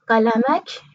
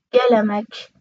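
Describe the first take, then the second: First: قلمک as qalamak, with q; teacher's demo of قلمک as qalamak; q variant. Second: گلمک as gelamak, with hard g; teacher's demo of گلمک as gelamak; g variant. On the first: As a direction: begin قلمک on a back q. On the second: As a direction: begin گلمک on g in place of q. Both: Shown as a demonstration. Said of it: "یا".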